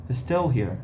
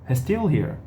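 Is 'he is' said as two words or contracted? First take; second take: contracted; contracted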